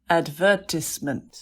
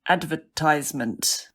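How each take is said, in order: First: The word is said with a British accent. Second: The word is said with an American accent. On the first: "so that's the British pronunciation" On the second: "Excellent U S A English"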